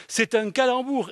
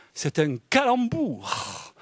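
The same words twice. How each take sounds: First: "C'est un calembour" repeated higher, with a delighted fall. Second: "c'est un calembour" drawn out slowly, falling; slow reveal. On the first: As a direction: hammer the pun home. (répéter « C'est un calembour » plus haut, ravi) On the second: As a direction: savour the punchline. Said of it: "a singer". (dire « c'est un calembour » très lentement) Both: Shown as a demonstration.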